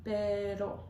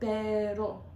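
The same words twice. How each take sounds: First: The r is tapped with the tongue tip. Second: The same.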